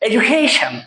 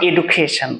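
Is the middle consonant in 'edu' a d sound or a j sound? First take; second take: j sound; d sound. First: The 'du' is said with a j sound. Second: The 'du' is said with a d sound. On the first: The speaker calls it right. "এজু" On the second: The speaker calls it wrong. "Not এডুকেশন, এডু বলতে কোনো কথা নাই"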